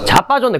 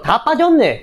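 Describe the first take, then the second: First: The word begins with a 'j' sound. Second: The word begins with a 'd' sound. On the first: This is how it sounds today. "세종대왕이 뭐라고 대답하냐면" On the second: This is how it sounded in the fifteenth century. "고증을 살려서 발음하면"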